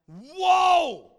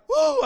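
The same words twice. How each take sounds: First: It sounds amazed and full of wonder. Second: It sounds frightened and alarmed. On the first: Something marvelous is being admired. "It's like this marvelous thing" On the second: Something frightening is happening. "it's not like, whoa, I'm scared"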